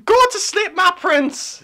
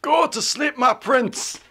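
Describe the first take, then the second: First: Put-on high, louder old bag lady voice; Nina voice. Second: Lightly creepy, half-voiced lullaby; creepy whisper voice. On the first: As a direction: screech it like a crazed old hag. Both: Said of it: "Do Nina voice".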